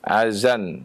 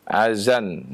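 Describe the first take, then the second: First: The middle consonant is a 'z' sound. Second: The middle consonant is a 'z' sound.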